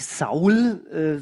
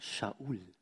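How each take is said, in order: First: The name begins with a plain s sound. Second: The name begins with an sh sound. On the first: This is the usual local way of saying the name. The speaker calls it wrong. "wie wir das so schön aussprechen" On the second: This is the original Hebrew way of saying the name. The speaker calls it right. "hebräisch müsste man sagen Shaul"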